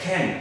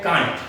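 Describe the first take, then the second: First: "can" for can't, aspirated khen, no t; contracted can't. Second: "can't" as kaant, long aa and clear t; common wrong can't. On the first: Teacher correcting learners, khen for can't. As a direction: puff the k of "can" and drop the t. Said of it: "ये होता है". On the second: Teacher showing the usual form, kaant for can't. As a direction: open the vowel of "can't" and sound the t. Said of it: "लेकिन ये can't नहीं होता". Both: Shown as a demonstration.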